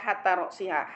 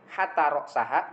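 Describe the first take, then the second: First: The vowel before the final syllable is 'i'. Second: The vowel before the final syllable is 'a'. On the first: The word is genitive, governed by a preposition. "wa alamatu jarhi al kasratu dhahirah" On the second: The word is accusative, joined as a coordinated object. "wa alamatun nasbih al fathatu dhahirah"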